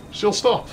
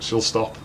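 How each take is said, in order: First: "She'll stop" jumps much higher, hopeful; anxious high repeat. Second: Said in the usual way. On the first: Real, not acted. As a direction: repeat it higher as if begging it true. Nervously reassuring himself.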